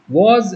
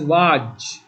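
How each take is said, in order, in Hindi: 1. शब्द 'was' 'z' ध्वनि पर खत्म होता है। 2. शब्द 'was' 'j' ध्वनि पर खत्म होता है।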